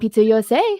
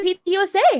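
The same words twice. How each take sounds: First: The voice is pitched lower than normal. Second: The voice is pitched higher than normal. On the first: It is said over the phone. "on the phone I do get lower than my normal tone" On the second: It is said face to face. "in person, I think I get higher"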